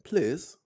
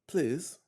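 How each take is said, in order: First: It is said in a put-on English accent. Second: It is said in the speaker's ordinary accent.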